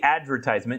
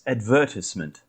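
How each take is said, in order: First: The stress is on the first syllable. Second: The stress is on the second syllable. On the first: This is the American way of saying it. "we say advertisement ... the shortened version is the syllable that we stress" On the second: This is the British way of saying it. "the British pronunciation of advertisement"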